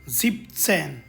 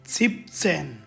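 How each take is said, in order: Both takes have the same delivery.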